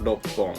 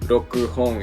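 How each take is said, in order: First: The sounds are slurred together into one. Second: The sounds are kept separate, without slurring. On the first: The speaker calls it right. "we would slur like the sounds together" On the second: The speaker calls it wrong. "instead of saying like, you know"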